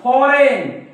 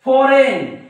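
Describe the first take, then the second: Both takes have the same delivery.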